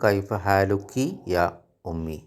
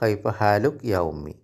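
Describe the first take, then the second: First: The ending vowel of 'haaluki' is pronounced. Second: The ending vowel of 'haaluk' is dropped. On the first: This is the proper full form. "ശരിക്കും പറയേണ്ടത്" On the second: This is how it is said in everyday speech. "സംസാരിക്കുമ്പോൾ"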